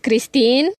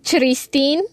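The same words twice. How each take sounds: First: The name begins with a k sound. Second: The name begins with a ch sound. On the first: The speaker calls it right. "dices Christine" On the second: The speaker calls it wrong. "no dices Christine"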